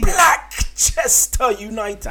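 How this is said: It is said boldly, with full conviction. The speaker calls it right.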